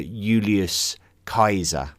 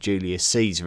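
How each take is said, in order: First: The name is said the classical Latin way. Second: The name is said the usual English way. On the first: This is closer to the original name. "his Latin name is probably more closely uh" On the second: This is the familiar modern name. "probably always going to be called Julius Caesar"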